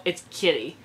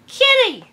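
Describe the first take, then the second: First: Said in the usual way. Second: Put-on very high little-kid cry of the name; squeaky toddler squeal. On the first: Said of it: "Why did I say Sully?". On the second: Fan redoing the toddler's line, now with the right name. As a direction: squeal it like a delighted tiny toddler. Corrects himself, squeals again.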